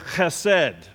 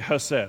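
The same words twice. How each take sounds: First: The first sound is a harsh throaty rasp. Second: The first sound is a plain English sound. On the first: "You got to do the guttural sounds if you're going to say it right" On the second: "We're going to go with the English easy way to go"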